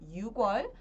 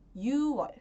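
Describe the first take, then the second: First: A k sound is heard before wol. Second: No k sound is heard before wol. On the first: The speaker calls it wrong. "Ao invés de pronunciar como" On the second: The speaker calls it right. "nós falamos e escrevemos"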